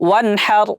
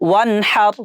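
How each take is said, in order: Both takes have the same delivery.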